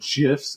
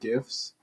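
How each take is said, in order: First: It begins with a soft J sound. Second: It begins with a hard G sound. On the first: The speaker calls it wrong. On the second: The speaker calls it right.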